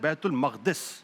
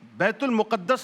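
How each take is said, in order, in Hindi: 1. दूसरा लफ़्ज़ 'maqdis' बोला जाता है। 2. दूसरा लफ़्ज़ 'muqaddas' बोला जाता है। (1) "असल लफ्ज है बैतुल मक़दिस, जो सही लफ्ज है" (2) "ये लफ्ज गलत है"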